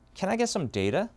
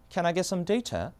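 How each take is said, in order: First: It is said in an American accent. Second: It is said in a British accent.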